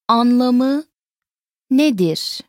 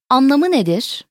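First: "Anlamı" rising, pause, "nedir" falling; word by word. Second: Said in the usual way. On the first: Shown as a demonstration. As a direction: separate "Anlamı" from "nedir" for learners. Teacher repeats it word by word.

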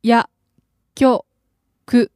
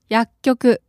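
First: 薬 and 局 said apart with a pause; over enunciating 薬局 in two parts; slow syllable by syllable. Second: Said in the usual way. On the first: Shown as a demonstration. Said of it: "Slowly, please". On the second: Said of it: "normal take after slow one".

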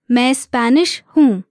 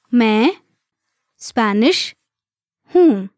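First: Said in the usual way. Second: Separated words, evenly spaced for learners. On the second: Shown as a demonstration. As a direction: say each word alone, leaving space to repeat. Teacher breaks phrase down for learners.

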